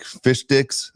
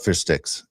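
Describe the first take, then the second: First: "fish sticks" said with a D, as "fish dicks"; slow, deliberate D in place of "st" in "fish sticks"; pun mispronunciation. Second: Said in the usual way. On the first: Retold or imitated. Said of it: "with the D, not sticks". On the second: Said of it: "not sticks".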